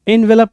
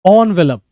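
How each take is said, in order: First: The word begins with an 'en' sound. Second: The word begins with an 'on' sound. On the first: The speaker calls it wrong. "इनवेलप नहीं" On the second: The speaker calls it right. "इसको हम ओ से शुरू करते हैं"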